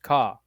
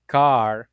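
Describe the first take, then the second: First: "ka" with the final R dropped; car said the Patois way, "ka"; non-rhotic. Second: Said in the usual way. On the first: Shown as a demonstration. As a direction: say "ka", an open vowel and no R. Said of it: "is not really pronounced". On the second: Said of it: "would be pronounced ka".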